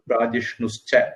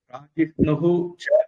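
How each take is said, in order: First: The words merge into one with a doubled 'ch'. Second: The two words are said separately with 'hu'. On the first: The words are read together. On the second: The words stand apart.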